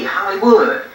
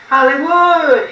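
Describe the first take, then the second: First: Said in the usual way. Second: Higher, louder, a big call to the city; greeting the city of Hollywood with a big call. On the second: Retold or imitated. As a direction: shout it out like stepping off the bus. Arriving in Hollywood, calling out.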